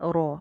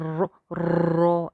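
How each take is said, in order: First: The r is trilled only briefly, once. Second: The r is trilled many times over. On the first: The speaker calls it right. "जैसे बा ता सा वैसे रॉ" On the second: The speaker calls it wrong. "ज़रूरत से ज़्यादा तकरार के जैसे रॉ रॉ ऐसे करके र ये साउंड ना नहीं चाहिए"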